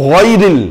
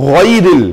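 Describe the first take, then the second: Both takes have the same delivery.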